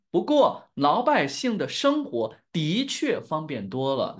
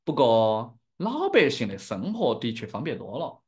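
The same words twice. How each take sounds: First: Slow, carefully pronounced standard Mandarin. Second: Chengdu-accented Sichuanese Mandarin; demonstrating a Sichuan dialect accent. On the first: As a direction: teach it slowly in standard Mandarin. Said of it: "This is standard Mandarin". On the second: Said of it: "speaking in my dialect". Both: Shown as a demonstration.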